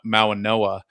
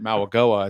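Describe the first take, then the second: First: The middle consonant is an n sound. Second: The middle consonant is a hard g sound. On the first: The speaker calls it right. "It's actually Mau- Mauanoa" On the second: The speaker calls it wrong. "I was pronouncing it Mauagoa"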